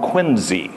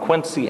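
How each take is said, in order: First: The middle consonant is a Z sound. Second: The middle consonant is an S sound. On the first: The speaker calls it right. "It's more like a Z sound than it is our C sound" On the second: The speaker calls it wrong. "I was saying John Quincy Adams. They said everybody gets it wrong"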